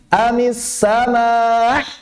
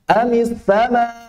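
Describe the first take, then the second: First: The final glottal stop is stressed excessively hard. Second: The final glottal stop is clearly but lightly pronounced. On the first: The speaker calls it wrong. "Nabernya menjadi ... nggak perlu begitu" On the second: The speaker calls it right. "Yang penting tampak hamzahnya"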